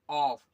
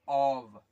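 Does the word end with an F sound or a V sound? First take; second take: F sound; V sound. First: The word ends with a voiceless F sound. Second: The word ends with a voiced V sound. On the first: The speaker calls it wrong. "ऐसे। लेकिन ये गलत है" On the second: The speaker calls it right. "इसका sound होता है ऑव, वा, वी का साउंड होता है"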